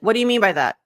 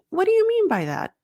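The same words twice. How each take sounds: First: The question sounds harsh and aggressive. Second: The question sounds soft and curious. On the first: The listener will not feel safe to open up. The speaker calls it wrong. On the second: The listener will feel safe to open up. The speaker calls it right.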